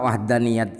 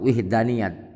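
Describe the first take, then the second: First: The first vowel is an 'a' sound. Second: The first vowel is an 'i' sound. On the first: "wawunya dibaca fathah" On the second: "memperbolehkan wawunya dibaca kasrah"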